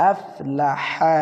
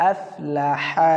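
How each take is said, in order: First: আফলাহা, slow, with হা pressed from mid-throat; আফলাহা-র হা গলার ভিতরে চাপ দিয়ে ধীরে. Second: Said in the usual way. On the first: Shown as a demonstration. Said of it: "গলা ভিতরে চাপ দিয়ে উচ্চারণ করবেন". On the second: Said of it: "হা কীভাবে উচ্চারণ করে ভালো করে খেয়াল করবেন".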